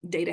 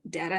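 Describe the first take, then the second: First: The first vowel sounds like the one in hate. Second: The first vowel sounds like the one in hat. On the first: "has the vowel in hate" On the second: "has the vowel in hat"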